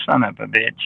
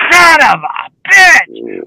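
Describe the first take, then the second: First: Muttered version. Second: Drawn out version. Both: Retold or imitated. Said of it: "says it in different ways".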